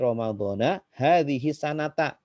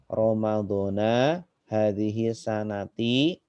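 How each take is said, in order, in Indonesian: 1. Kata terakhir berakhir dengan vokal 'a'. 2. Kata terakhir berakhir dengan vokal 'i'. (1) "Harusnya gitu" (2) "kalau membacanya itu Ramadhana itu eh, salah menurut eh, ilmu nahwu"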